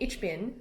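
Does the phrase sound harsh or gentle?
harsh. It is said harshly, like an English speaker. The speaker calls it wrong. "Instead of saying"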